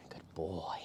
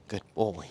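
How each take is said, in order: First: Soft whisper of praise to the dog. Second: Said in the usual way. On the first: Real, not acted.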